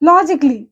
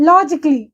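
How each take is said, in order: The two takes are said the same way.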